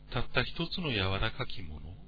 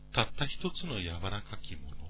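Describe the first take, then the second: No difference in how they are said.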